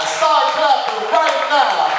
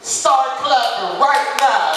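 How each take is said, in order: First: Louder Start clapping right now, hitting right; shouted announcer call. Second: Slow, steady Start clapping right now; drawn-out Start clapping right now, steady level; slow announcer call. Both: Shown as a demonstration. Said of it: "repeated louder".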